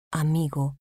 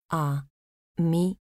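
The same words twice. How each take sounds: First: Said in the usual way. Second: "Amigo" split as A, mi, go; syllable by syllable. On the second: Shown as a demonstration. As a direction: say "Amigo" with a pause after each syllable. ("Amigo" separado en sílabas: a, mi, go) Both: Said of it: "Separación de sílabas".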